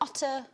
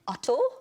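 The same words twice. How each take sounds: First: It is said in a plain, everyday accent. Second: It is said in a Welsh accent.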